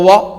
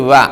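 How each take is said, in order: First: The syllable is heavy with a rounded o vowel. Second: The syllable is light with a thin a vowel. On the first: The speaker calls it wrong. "വോ വോ വോ അല്ല" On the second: The speaker calls it right. "ഫത്ഹോട് കൂടി ഉവ അല്ലേ?"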